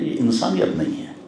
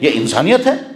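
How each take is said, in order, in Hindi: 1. यह नरम, प्यार भरे लहजे में कहा गया है। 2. यह कड़े, डांटने वाले लहजे में कहा गया है। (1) "बड़ी मोहब्बत के साथ" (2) "किसी को डांटना चाहते हैं तो हम कहेंगे"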